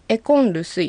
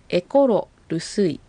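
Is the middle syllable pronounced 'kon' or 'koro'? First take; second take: kon; koro. First: The r changes to n: 'ekon rusuy'. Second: Said slowly with the full 'koro' sound. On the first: "エコンルスイってなってますよね" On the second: "これはゆっくり発音するとエコロルスイとなります"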